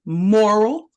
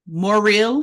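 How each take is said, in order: First: Said in the usual way. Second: Morrill with a distinct "-eel" second syllable; careful pronunciation. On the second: Shown as a demonstration. Clarifying the surname for listeners, Morrill said "more-eel". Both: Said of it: "so that we can understand it's not the word".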